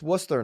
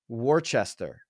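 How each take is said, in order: First: Several written syllables are dropped. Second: All the written syllables are sounded out. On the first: The speaker calls it right. "It's Worcester" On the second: The speaker calls it wrong. "A lot of people would read that"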